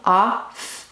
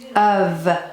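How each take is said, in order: First: The word ends with an F sound. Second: The word ends with a V sound. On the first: This is how the word is spelled. "Think to spell off" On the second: This is how the word is spoken. "We say of"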